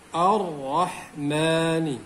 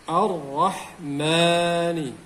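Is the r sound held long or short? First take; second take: long; long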